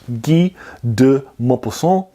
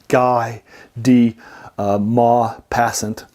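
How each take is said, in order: First: The name is said with French-style pronunciation. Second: The name is said with English-style pronunciation. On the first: The speaker calls it right. "It's actually French" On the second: The speaker calls it wrong. "that's maybe how you even pronounce it"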